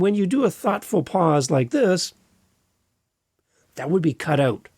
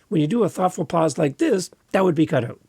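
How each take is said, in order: First: There is a pause after 'like this'. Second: There is no pause after 'like this'.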